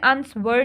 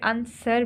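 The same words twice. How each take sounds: First: A w sound is pronounced after the s. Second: No w sound is pronounced after the s. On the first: The speaker calls it wrong. "इसमें आंसर नहीं बोल रहे" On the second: The speaker calls it right. "आंसर बोल रहे हैं"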